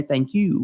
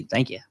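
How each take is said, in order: First: Said in the usual way. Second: "thank you" with the "you" reduced to a quick "ya", Southern style; Southern "thank you" ending in a soft "ya". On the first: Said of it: "we say thank you in the South". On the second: Shown as a demonstration. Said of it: "I don't talk like this".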